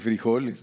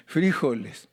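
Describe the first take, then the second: First: "frijoles" stressed on the O. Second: "frijoles" stressed on the first syllable. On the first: Preacher contrasts with Colombians, "frijoles" stressed on JO. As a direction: say "frijoles" as fri-JO-les. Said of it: "lleva acento en la O". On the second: Preacher shows Colombian usage, "frijoles" stressed FRÍ-joles. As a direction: hit FRI in "frijoles". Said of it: "lo ponen en la I". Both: Shown as a demonstration.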